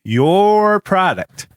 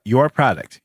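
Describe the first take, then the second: First: "your" stretched long, high and loud; stress on YOUR. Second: Said in the usual way. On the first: Acted. Host accusing Zuckerberg of his product's harm, emphatic on YOUR. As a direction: hammer a drawn-out YOUR, then fall on "product".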